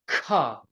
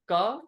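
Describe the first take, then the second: First: The consonant is said with a puff of breath. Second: The consonant is said without a puff of breath. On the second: "no aspiration"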